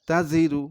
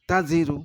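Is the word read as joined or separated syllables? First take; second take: joined; joined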